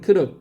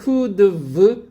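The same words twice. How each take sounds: First: It is said fast and reduced. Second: It is said slowly and fully.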